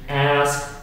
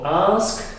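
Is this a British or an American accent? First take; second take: American; British. First: The vowel is a flat 'a' as in cat. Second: The vowel is a long open 'ah' sound. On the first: "American English" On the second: "In British English, it is typical"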